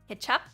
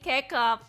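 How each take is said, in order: First: The middle consonant is a ch sound. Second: The middle consonant is a hard k sound. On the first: The speaker calls it right. "C is is C H in ketchup" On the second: The speaker calls it wrong. "This whole time I've been I've been saying kecap"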